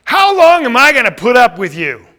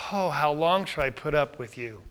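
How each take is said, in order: First: Loud, raised, fed-up demand; louder, higher, at the end of patience; exasperated outburst. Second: Softer, lower, worn-out lament; quiet, resigned plea; weary sigh. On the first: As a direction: burst out with impatience. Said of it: "Is that a total different message?". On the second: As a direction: sigh it out, quietly long-suffering. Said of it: "Could you say it that way? Or like". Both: Shown as a demonstration.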